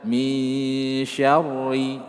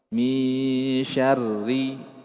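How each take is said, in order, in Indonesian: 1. Bunyi r-nya tebal dan berat. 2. Bunyi r-nya tipis dan ringan. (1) "jangan dibaca" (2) "ranya tipiskan"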